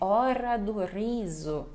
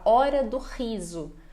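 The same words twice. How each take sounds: First: The R sounds full and savoured. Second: The R sounds short and dry. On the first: This is how people in Cape Verde say it. "É um R mais saboreado" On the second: This is how people in the speaker's own country say it. "A gente fala hora do riso, para nós ficar mais seco"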